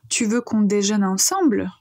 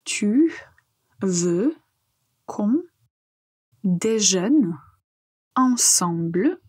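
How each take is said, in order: First: Said in the usual way. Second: One word at a time with long pauses between; slow pronunciation drill, each word set apart. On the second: Shown as a demonstration. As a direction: say each word separately for learners to repeat. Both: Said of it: "on apprend à prononcer".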